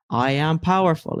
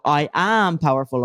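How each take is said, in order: First: "I am powerful" said flatly, with no conviction; a half-hearted affirmation that falls flat; limp, unconvinced. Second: Mean it this time; with conviction. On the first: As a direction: say "powerful" like you don't believe it. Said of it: "that's the crappiest way to say that". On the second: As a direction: stress on "am" in "I am powerful". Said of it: "You've gotta have a bit more conviction". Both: Shown as a demonstration.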